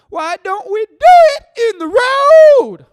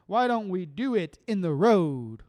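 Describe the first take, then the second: First: Sung, much higher, much louder, slow belted wail; sung, belt it out like a rock singer. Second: Said in the usual way. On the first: Retold or imitated. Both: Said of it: "Power to you, [name]".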